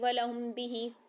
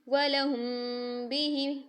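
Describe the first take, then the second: First: The m is said plainly without a held nasal. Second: The m is hidden with a held nasal sound. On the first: The speaker calls it wrong. "हम ऐसे नहीं पढ़ेंगे" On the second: The speaker calls it right. "इक्वा माल उन्ना के साथ करेंगे"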